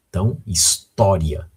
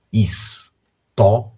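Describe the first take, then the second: First: Said in the usual way. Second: História drawn out slowly, syllable by syllable. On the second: Shown as a demonstration. (palavra História dita devagar, sílaba por sílaba)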